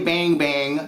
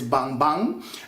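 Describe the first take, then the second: First: The name is said with an American pronunciation. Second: The name is said with a non-American pronunciation. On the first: The speaker calls it wrong. "don't Americanize it. Don't say bang bang" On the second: The speaker calls it right. "No, it is bang bang"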